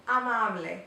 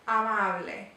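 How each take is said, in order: The two takes are said the same way.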